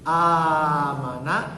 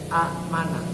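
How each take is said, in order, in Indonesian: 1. Vokal pertama dibaca panjang. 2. Hamzah mengikuti vokal pertama yang pendek. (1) "a-nya panjang" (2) "aslinya amanah"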